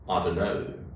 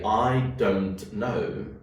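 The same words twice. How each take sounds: First: The t sound in "don't" is dropped. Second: The t sound in "don't" is clearly pronounced. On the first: "what happened to the tet sound? It is gone" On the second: "I didn't say I don't know"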